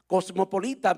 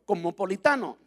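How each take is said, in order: First: Said in the usual way. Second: "cosmopolitano" with the made-up "-ano" ending, said proudly; pastor's joke word. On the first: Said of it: "bien dicho en español". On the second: Shown as a demonstration. Pastor jokes to the church about his own word, playful. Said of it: "en el español del pastor".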